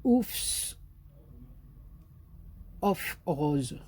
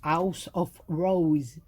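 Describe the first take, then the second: First: "Oufs of Rose" with a French accent, English lost. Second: Slow careful English accent on "House of Rose". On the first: Naming the collection to viewers, French accent slipping in. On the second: Retrying the collection name for viewers, slow English accent. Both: Shown as a demonstration. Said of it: "j'ai encore perdu l'accent anglais".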